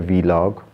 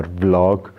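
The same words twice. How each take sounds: First: "vlog" said as vee-log; spelled-out pronunciation. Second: "vlog" as one syllable, v run into l; one-syllable pronunciation. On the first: Unsure vlogger trying a pronunciation, "vlog" as vee-log. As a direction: say "vlog" in two parts, V then log. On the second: Unsure vlogger offering the other pronunciation, "vlog" in one syllable. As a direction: blend "vlog" into a single beat, like blog with a v. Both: Shown as a demonstration. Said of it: "not sure how they're pronouncing it".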